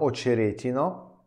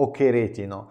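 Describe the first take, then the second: First: The middle consonant is a soft 'ch' sound. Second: The middle consonant is a harsh throaty 'kh'. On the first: It comes from an old word for a boundary. The speaker calls it right. "La città si chiama Oceretino" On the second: It sounds like a vulgar word for male genitals. The speaker calls it wrong. "molti fanno errori"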